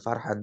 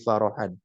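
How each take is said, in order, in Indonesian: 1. Kata ini diucapkan dengan dua suku kata. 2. Kata ini diucapkan dengan tiga suku kata. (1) "bukan farhan" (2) "tapi farahan"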